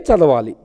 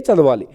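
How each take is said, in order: The two takes are said the same way.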